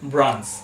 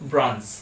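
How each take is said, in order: Both takes have the same delivery.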